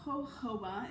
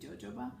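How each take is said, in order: First: The word begins without a J sound. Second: The word begins with a J sound. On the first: The speaker calls it right. "jojoba is how you say it" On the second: The speaker calls it wrong. "it's spelled with a J. So in my brain, I always think jojoba"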